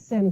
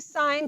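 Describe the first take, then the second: First: The vowel is short, like in 'pin'. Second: The vowel is long, like in 'pine'. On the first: The speaker calls it wrong. "we do not say sin" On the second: The speaker calls it right. "We say sine"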